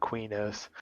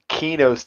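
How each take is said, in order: First: The name begins with a 'kwi' sound. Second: The name begins with a plain 'key' sound. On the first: The speaker calls it wrong. "I've even heard developers say Quinos" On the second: The speaker calls it right. "it'd be a key sound instead of a qui sound"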